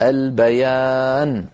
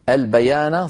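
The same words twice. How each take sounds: First: The word ends on a bare n consonant. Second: The final n carries a short a vowel. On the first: The reciter stops at this word. "لكن إن وقفنا فتحة النون تزول ويصير بدلا منها سكون" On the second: The reciter continues without stopping. "فتحة النون"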